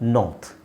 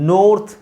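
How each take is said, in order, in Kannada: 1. ಈ ಸ್ವರ 'ah' ಥರ ಕೇಳಿಸುತ್ತೆ. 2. ಈ ಸ್ವರ 'oh' ಥರ ಕೇಳಿಸುತ್ತೆ.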